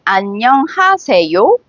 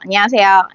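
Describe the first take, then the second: First: Each of the five syllables is said separately. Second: The first syllables merge, giving about four syllables. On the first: "say 안녕하세요" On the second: "it becomes more like four syllables"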